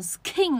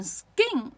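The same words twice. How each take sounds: First: Skin as "s-khin" with a puff on k; skin, k strongly aspirated; aspirated mistake. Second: Skin as "sgin", no puff of air; skin, k softened to g; unaspirated k. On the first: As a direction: say skin with an airy, breathy k. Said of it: "不是念成skin呢". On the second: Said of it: "为什么它明明是k". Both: Shown as a demonstration.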